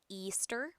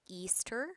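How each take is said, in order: The two takes are said the same way.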